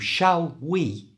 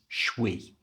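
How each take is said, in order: First: Both words are said fully, with the L. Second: The words merge into one syllable without L.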